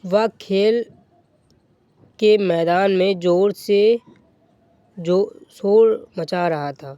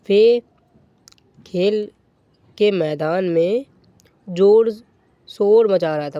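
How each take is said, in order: First: Said in the usual way. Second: ज़ोर hit hard and loud, words spaced out; slow, punched reread with ज़ोर loudest; stress on ज़ोर. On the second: Shown as a demonstration. Teacher rereading the example to class, stressing ज़ोर.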